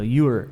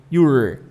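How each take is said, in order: First: "Your" with a light r at the end; imagine a small r closing "Your"; r-colored your. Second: "Your" with the r pulled hard and loud; strong r in your. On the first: Teacher showing reduced "your", light r. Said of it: "Imagina que tem um R ali". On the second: Teacher exaggerating the r in "Your", pulled hard. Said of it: "Puxa bem o R pra mostrar que tem um R". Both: Shown as a demonstration.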